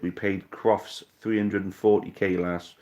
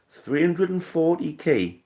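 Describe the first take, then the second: First: Said in the usual way. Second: Much higher and slow, disbelieving echo; stunned at the figure; incredulous. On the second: Real, not acted. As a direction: repeat the number as if you can't believe it.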